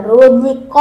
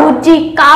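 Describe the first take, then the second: First: রুজি ক with a short clipped ক; right short vowel. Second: রুজি কা with a long open কা; wrong long a. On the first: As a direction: keep ক short. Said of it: "বলতে হবে". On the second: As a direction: stretch কা like আকার. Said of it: "বলা যাবে না". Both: Shown as a demonstration.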